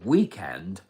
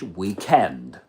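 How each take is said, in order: First: It is said with an American pronunciation. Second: It is said with a British pronunciation. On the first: "the American pronunciation" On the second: "but in British English"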